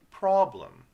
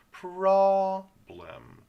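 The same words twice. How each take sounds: First: Said in the usual way. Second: "problem" with long, high, loud PRAH, then BLEM; sounded out. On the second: Shown as a demonstration. Teacher sounding out the word, first syllable stretched. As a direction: split "problem" into two drawn-out syllables. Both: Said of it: "The R vowel".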